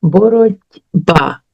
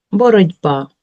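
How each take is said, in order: First: "Боротьба" slow, with a clear т before б; careful spelling pronunciation. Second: Said in the usual way. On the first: Shown as a demonstration. Teacher sounding out the word for pupils, slow and careful. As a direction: sound out "Боротьба" slowly so the т is heard. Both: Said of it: "Чуємо ти".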